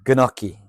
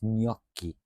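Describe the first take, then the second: First: The word starts with a hard G sound. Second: The G blends into the following N sound. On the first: The speaker calls it wrong. "not gnocchi. It, you don't say the G" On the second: The speaker calls it right. "The G is silent. It's gnocchi"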